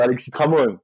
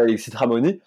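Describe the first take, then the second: First: Tramon with the last syllable dropped, Corsican way; Corsican pronunciation. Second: Alexis Tramoni with the final i said in full, a bit quick; continental pronunciation. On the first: Corsican man showing the right way to say his name, final syllable swallowed. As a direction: clip the end so Tramoni becomes Tramon. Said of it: "normalement, je devrais dire".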